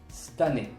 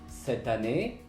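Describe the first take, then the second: First: The first vowel drops, fusing into one word. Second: Both words are said fully, with every syllable.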